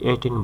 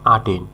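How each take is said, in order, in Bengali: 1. এটি 'e' ধ্বনি দিয়ে শুরু হয়। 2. এটি 'a' ধ্বনি দিয়ে শুরু হয়। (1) "অনেকে এটাকে এটেন বলে" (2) "তবে সঠিক উচ্চারণ আটেন"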